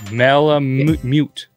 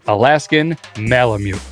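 First: The word is said with an extra 'u' sound. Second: The word is said without an extra 'u' sound. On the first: The speaker calls it wrong. "Where are you getting that extra U from?" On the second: The speaker calls it right. "nailed it"

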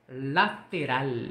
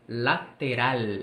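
The two takes are said the same way.

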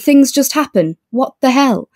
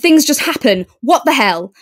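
First: It is said in a loose, light tone. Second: It is said in an angry, aggressive tone. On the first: "much looser, much lighter" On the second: "it was more angry"

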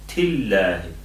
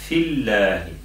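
No difference in how they are said.

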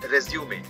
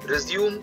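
First: The word ends with an extra 'ay' syllable. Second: The word ends on the 'm' sound. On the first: A document listing one's qualifications. "उस biodata को English में रिज्यूमे कहते हैं" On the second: To start again. "एक और उच्चारण होता है जिसे रिज्यूम पढ़ते हैं, टू स्टार्ट अगेन"

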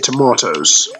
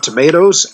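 First: The word is said with a British pronunciation. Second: The word is said with an American pronunciation. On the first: "the British, ... we say tomatoes" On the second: "the Americans say tomatoes"

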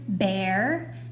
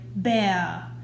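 First: The R sound is clear and firm. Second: The R sound is weak and distorted. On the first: The speaker calls it right. "Instead of saying the word bear" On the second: The speaker calls it wrong. "you're gonna have a sneaky sound"

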